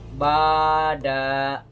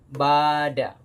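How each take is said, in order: First: The final vowel is also drawn out long. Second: The first vowel is long, the final vowel short. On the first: The speaker calls it wrong. "itu salah. Kenapa? Karena danya saya panjangkan" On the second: The speaker calls it right. "Kalau D-nya tidak"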